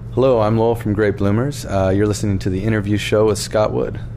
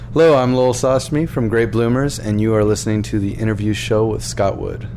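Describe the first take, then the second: First: It is said with calm, ordinary energy. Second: It is said with high, lively energy.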